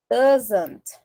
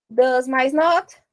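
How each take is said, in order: First: "Doesn't" said as one clear word; contracted form. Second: "Does mais not" said slowly; slow spelling out. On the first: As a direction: land the contraction "Doesn't" cleanly. ("Doesn't" pronunciado junto) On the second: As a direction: build it part by part. (montando devagar) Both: Shown as a demonstration. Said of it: "fica como".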